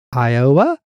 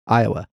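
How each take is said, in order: First: "Iowa" louder, big O, rising like a question; mimicked stress on Iowa. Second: Said in the usual way. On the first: Teasing the co-host's way of saying it, stressed Iowa. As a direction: punch the O in "Iowa" and swoop up. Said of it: "That's how you say". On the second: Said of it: "You put a lot of emphasis on".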